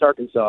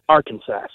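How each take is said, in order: First: The word is said not ending like 'Kansas'. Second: The word is said to end like 'Kansas'. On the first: "people are like, no, it's Arkansas" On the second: "It's not Kansas, it's Arkansas"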